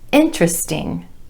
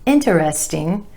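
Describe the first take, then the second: First: The word is said with three syllables. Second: The word is said with four syllables. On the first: The speaker calls it right. "three syllables" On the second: The speaker calls it wrong. "Not interesting"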